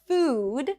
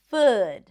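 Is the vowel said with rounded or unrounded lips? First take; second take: rounded; unrounded. First: The vowel is said with rounded lips. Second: The vowel is said with unrounded lips. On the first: The speaker calls it right. "a word like food" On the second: The speaker calls it wrong. "might sound like food"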